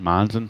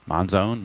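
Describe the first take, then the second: First: Monzon as MON-zun, reduced ending; guessed pronunciation. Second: Monzone ending in a long-O "zone"; alternative pronunciation. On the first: Settling on the player's name, Monzon as MON-zun. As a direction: keep the end of Monzon a short "zun". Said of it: "I guess Monzon". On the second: Unsure of the player's name, Monzone with a long O. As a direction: give Monzone a full "zone" second syllable. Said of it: "if it was a zone". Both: Shown as a demonstration.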